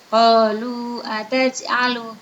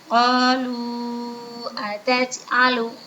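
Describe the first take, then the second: First: The long vowel is held for two beats. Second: The long vowel is held for four beats.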